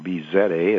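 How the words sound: The letter Z is said as zed.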